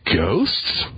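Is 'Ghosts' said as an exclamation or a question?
question. The word rises at the end like a question. The speaker is unsure whether ghosts exist. "You didn't put a question mark at the end of it"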